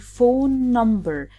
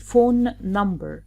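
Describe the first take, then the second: First: The two N sounds merge into one longer N. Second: Both N sounds are pronounced separately. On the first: The speaker calls it right. "we say phone number, as if we cross out the first N and extend a little bit the second N" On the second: The speaker calls it wrong. "We don't repeat both N's. We don't say phone number"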